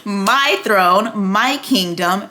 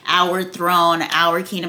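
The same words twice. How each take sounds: First: Each MY landed hard, phrase by phrase; hammered stress on MY. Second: Said in the usual way. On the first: Retold or imitated. Queen claiming throne from husband, MY hammered. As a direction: hammer every "my" as a correction. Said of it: "she would hammer in". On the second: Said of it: "every time he would say".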